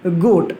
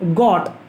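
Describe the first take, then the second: First: The vowel is a long 'oh' sound. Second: The vowel is a short 'o' as in 'got'. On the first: The speaker calls it right. "आपको इसको कहना है" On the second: The speaker calls it wrong. "It's a wrong pronunciation"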